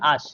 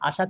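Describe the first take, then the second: First: The word is said without its final vowel. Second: The word is said with its final vowel. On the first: "আশা থেকে আশ" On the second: "অন্ত সরালোপ"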